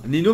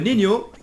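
First: The middle consonant is a plain n sound. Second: The middle consonant is a Spanish ñ sound. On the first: The speaker calls it wrong. "ne se prononce pas Nino" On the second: The speaker calls it right. "mais Nino. Parce que c'est espagnol"

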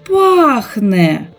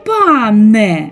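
First: The word is said with the 'kh' sound. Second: The word is said without the 'kh' sound. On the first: The speaker calls it right. "Як правильно сказати?" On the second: The speaker calls it wrong. "погублять всі звуки Х"

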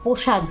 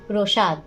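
First: The 'r' is dropped and replaced by an 'o' vowel. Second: The 'r' after the first consonant is clearly kept. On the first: The speaker calls it wrong. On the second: The speaker calls it right.

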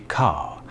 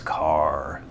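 First: The final R sound is dropped. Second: The final R sound is clearly pronounced. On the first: "people do not pronounce their R's at the end of words. So it would be car" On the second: "there's a very obvious car. Like, there's almost a growly kind of R sound in there"

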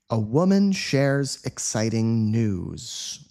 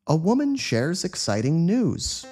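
First: The sentence is said at a medium speed. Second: The sentence is said at a fast speed. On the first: "Let's say this again at a medium speed this time" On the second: "Let's say it quickly like a native speaker would"

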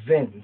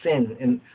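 First: The name begins with a buzzing z sound. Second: The name begins with a hissing s sound. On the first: "it could be have a Z sound" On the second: "Some say Sin"

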